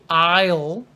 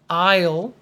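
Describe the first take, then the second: The two takes are said the same way.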